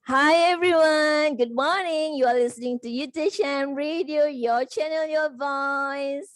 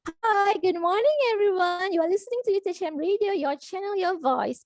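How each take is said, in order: First: It is said in a full, projected outer voice. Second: It is said in a thin, soft inner voice.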